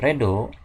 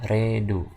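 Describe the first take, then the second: First: The word is read as it is spelled. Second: The word is read with English-style vowels. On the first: The speaker calls it wrong. "yang ini bukan dibaca redo" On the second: The speaker calls it right. "tapi dibacanya adalah redo"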